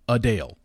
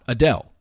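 First: The first syllable is a reduced 'uh' sound. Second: The first syllable has a full vowel sound. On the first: The speaker calls it right. "The pronunciation spelled out U-H-D-A-L-E" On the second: The speaker calls it wrong. "not Adele"

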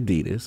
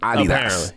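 First: Adidas is said the American way. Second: Adidas is said the British way.

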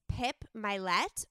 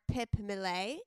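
First: The surname is said the plain English way. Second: The surname is said the French way.

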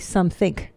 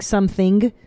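First: The word ends with a hard 'k' sound. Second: The word ends with a soft 'ing' sound. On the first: "I put a K instead of an ing" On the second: "instead of saying ing"

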